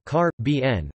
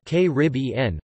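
First: "Car, B N" with main stress on the B; stress on third syllable. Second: "K Rib E N" with the stress on Rib; stress on second syllable. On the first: Reader demonstrates one of two pronunciations, "Car, B N" stressed on B. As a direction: hit B hardest in "Car, B N", Car secondary. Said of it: "with the primary stress on the third syllable". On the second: Reader demonstrates the other pronunciation, "K Rib E N" stressed on Rib. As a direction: punch Rib in "K Rib E N", the rest unstressed. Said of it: "with the stress on the second". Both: Shown as a demonstration.

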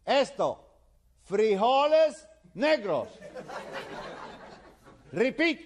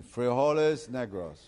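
First: Vieux qui hurle comme à un sourd, très aigu; cri. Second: Put-on slow, reluctant repeat in American-accented Spanish. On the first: Acted. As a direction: shout each word slowly and high, drilling a foreigner. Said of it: "le sigue gritando". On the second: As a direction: stretch the vowels like an American beginner. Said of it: "George tiene que decir".

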